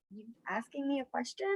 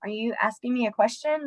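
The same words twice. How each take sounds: First: Softer, knowing question; pointed look. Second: Said in the usual way. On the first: Retold or imitated. Teacher questioning a kid's flat face, pointed. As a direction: quiz them with a look. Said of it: "I literally look at them like". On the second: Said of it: "And I'm like".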